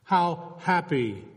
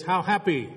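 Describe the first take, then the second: First: "How happy?" said slowly as a question, leaning on "How"; rhetorical question. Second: "how happy" said as an exclamation, falling on "happy"; exclaimed how happy. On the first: Preacher turns the phrase into an unanswerable question, slowly. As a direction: ask "How happy?" slowly, as if no answer exists. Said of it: "It's a rhetorical question". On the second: Preacher shows how the Scots read blessed, as an exclamation. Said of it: "with an exclamation point". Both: Shown as a demonstration.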